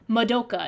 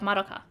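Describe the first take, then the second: First: The name is said with an English-style pronunciation. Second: The name is said with a Japanese-style pronunciation. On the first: The speaker calls it wrong. "they always say Madoka" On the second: The speaker calls it right. "instead of Madoka"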